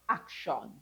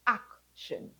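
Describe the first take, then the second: First: The last syllable is a full 'shawn'. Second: The last syllable is a reduced 'shun'. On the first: The speaker calls it wrong. "not action" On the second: The speaker calls it right. "You have shun"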